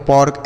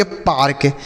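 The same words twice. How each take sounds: First: "पॉर्क" with an open aw, as pork; wrong AW vowel. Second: "पार्क" with a long aa before r; correct AA vowel. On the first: Teacher showing children a misreading of park, "पॉर्क" as pawrk. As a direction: say "पॉर्क" with aw instead of aa. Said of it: "ऐसे कुछ नहीं पढ़ना है". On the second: Teacher reading out P-A-R-K, "पार्क" with long aa. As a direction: say "पार्क" as paark. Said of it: "इसे हम पढ़ेंगे पार्क". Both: Shown as a demonstration.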